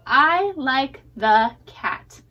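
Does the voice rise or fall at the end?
fall. The voice falls at the end, like a statement.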